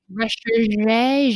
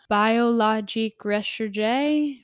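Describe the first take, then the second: First: Recherche with a rolled, French-style "ruh-SHER-zhay" and a falling end; mock French accent. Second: Recherche said slowly as "ruh-sher-zhay", syllable by syllable; careful French name. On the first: Finally nailing the product name, hammed-up French. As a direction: lean into a put-on French Recherche. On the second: Reading a skincare product name, slow careful French attempt. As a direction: sound out Biologique Recherche slowly, unsure of the French. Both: Shown as a demonstration. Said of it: "I don't do this French accent stuff very well".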